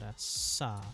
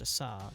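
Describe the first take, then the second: First: The s sound is held long. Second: The s sound is short. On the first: The speaker calls it right. "it's a long S sound" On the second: The speaker calls it wrong. "not just a sa"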